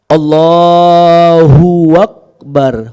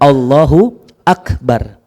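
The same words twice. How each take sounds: First: A w sound links into 'Akbar' (huwakbar). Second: 'Akbar' starts cleanly without a w sound. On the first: The speaker calls it wrong. "kesalahan biasa takbir bacanya gini" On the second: The speaker calls it right. "Harusnya Allahu Akbar"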